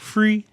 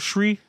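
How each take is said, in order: First: The word begins with an f sound. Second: The word begins with a shr sound. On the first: "pronounce the word three as in free" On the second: "or shri?"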